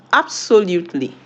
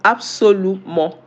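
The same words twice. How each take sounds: First: "absolutely" said the English way, ending in -ly; English pronunciation. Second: "absolument" said the French way, ending in "mo"; French pronunciation. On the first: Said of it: "in English". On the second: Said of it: "How is it pronounced in French?". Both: Shown as a demonstration.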